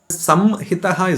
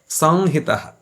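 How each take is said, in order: First: The lips close for a full m sound. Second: The vowel is nasalized without the lips closing. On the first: The speaker calls it wrong. "Samhitaha is wrong" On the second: The speaker calls it right. "nasalize that the vowel sound"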